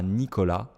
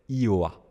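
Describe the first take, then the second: First: The name is said with all its consonants. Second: The name is said using only its vowels. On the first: "je ne disais pas Nicolas" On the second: "je parlais seulement en voyelles"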